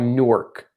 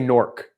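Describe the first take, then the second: First: The name is said in a fuller form. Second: The name is squeezed into one sound, 'nork'. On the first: This is the official way to say it. "it's supposed to be called Newark" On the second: This is how the speaker has always said it. "like I say Newark, N O R K"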